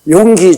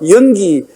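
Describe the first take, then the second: First: The name is said with Korean pronunciation. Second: The name is said with a Western accent. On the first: The speaker calls it right. "용기 조로 해놓으니까" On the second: The speaker calls it wrong. "그 용기가 왜 발음이 안 되는지 날 보고 연기"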